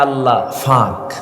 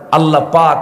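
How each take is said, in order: First: It is said with a Noakhali f sound. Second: It is said with a standard Bengali p sound.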